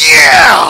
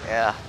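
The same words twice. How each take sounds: First: It is said with lots of excitement. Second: It is said flatly, without excitement.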